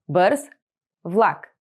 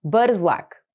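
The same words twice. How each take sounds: First: Бърз, then влак after a pause; slow, split Бърз влак; word by word. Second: Said in the usual way. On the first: Shown as a demonstration. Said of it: "teacher splits phrase word by word". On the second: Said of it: "teacher models phrase at normal speed".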